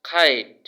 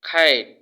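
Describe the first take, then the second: The two takes are said the same way.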